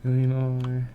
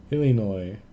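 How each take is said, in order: First: Illinois said as "lina", squashed and unsure; saying Illinois. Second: Illinois said clearly as "ih-lih-noy"; careful Illinois. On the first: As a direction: try Illinois the way it looks, "lina". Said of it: "pronounce it". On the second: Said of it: "they should be pronounced the same". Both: Shown as a demonstration.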